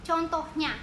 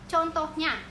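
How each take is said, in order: Both takes have the same delivery.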